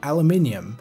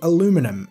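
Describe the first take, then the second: First: The word is said the non-American way. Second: The word is said the American way. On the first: "over here we say" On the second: "In the U S you say"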